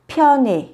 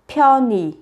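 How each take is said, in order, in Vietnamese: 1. Nguyên âm cuối phát âm giống e. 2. Nguyên âm cuối phát âm giống i. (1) "Thứ nhất, biến đổi ư thành e" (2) "Thứ hai, biến đổi ư thành y"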